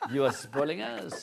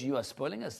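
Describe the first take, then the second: First: It is said in a put-on French accent. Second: It is said in a plain English accent.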